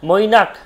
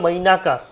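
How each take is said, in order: First: The name ends on a bare consonant sound. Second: The name ends with a vowel after the consonant. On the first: "সবগুলো কিন্তু আপনার অর্ধ ব্যঞ্জন হিসেবে উচ্চারণ হবে" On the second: "যখনই আমি সম্পূর্ণ ব্যঞ্জন উচ্চারণ করবো"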